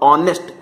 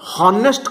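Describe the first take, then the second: First: The word begins with a vowel sound. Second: The word begins with an h sound. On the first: The speaker calls it right. "कहूचे कोन ऑनेस्ट" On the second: The speaker calls it wrong. "आमे हॉनेस्ट कहूने"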